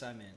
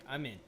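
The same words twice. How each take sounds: First: It is said in a put-on hacker voice. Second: It is said in a normal voice.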